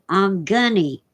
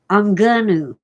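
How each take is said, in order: First: It is slurred further into 'I'm gunny'. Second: It is contracted and reduced to 'I'm gonna'. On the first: "it certainly is not I'm gunny" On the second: "is not pronounced I'm gonna"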